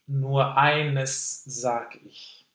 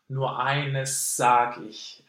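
First: An unvoiced S is followed by a separate voiced S. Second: One long unvoiced S with no voiced S. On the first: "the unvoiced eines, and sage, the voiced S" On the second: "lengthen the unvoiced S sound. And to drop the voiced S"

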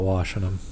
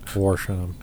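First: Washing is said with a plain standard vowel. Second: Washing is said with a Midwestern accent. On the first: "Not washing them" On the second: "That's my Midwestern accent"

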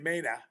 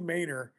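First: It is said in a Maine accent, r dropped. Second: It is said with the final r pronounced.

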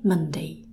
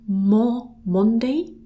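First: The first vowel sounds like the vowel in 'money'. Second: The first vowel sounds like the vowel in 'on'. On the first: The speaker calls it right. "we say Monday, a bit like we say monkey and money" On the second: The speaker calls it wrong. "looks like Monday"

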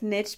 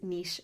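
First: The word rhymes with riches. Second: The word does not rhyme with riches. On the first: "I like niche because it rhymes with this cool thing, the riches are in the niches" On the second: "but I kind of use niche more"

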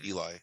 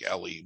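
First: The name is said like 'Eli'. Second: The name is said like 'Ellie'. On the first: This is the name as written in the book. The speaker calls it right. "but it's Eli" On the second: This is how others say the name. The speaker calls it wrong. "They say it like Ellie"

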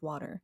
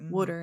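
First: The word is said with a standard vowel. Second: The word sounds like 'wooder' in a regional accent. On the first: The speaker calls it right. "instead of water" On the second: The speaker calls it wrong. "our accent is closer to Pennsylvania, which is why I say water"

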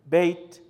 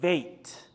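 First: The word begins with a B sound. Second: The word begins with a V sound. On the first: The letter is marked with a dot. "Whenever you have the dot in the B, it's Be" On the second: The letter has no dot. "the B is actually pronounced as a V"

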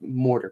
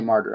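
First: The word is pronounced like 'mortar'. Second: The word is pronounced like 'martyr'. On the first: The speaker calls it wrong. "I always said it, like, mortar" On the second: The speaker calls it right. "now I say a martyr. I say it right"

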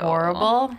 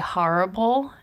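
First: It is said in a standard, neutral accent. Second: It is said in a harsh Long Island accent.

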